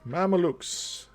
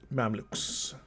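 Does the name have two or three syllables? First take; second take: three; two. First: The name is said with three syllables. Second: The name is said with two syllables. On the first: The speaker calls it wrong. "I always say Mama Lukes" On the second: The speaker calls it right. "but it's Mamluks"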